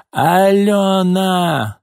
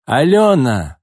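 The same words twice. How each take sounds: First: Put-on long, much higher, slow drunken yell; drawn-out yell. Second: Loud call across the yard. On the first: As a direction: stretch the name out in a wailing shout. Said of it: "снова крикнула Нина". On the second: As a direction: holler the girl's name. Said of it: "завопила вдруг Нина". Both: A narrator's reading.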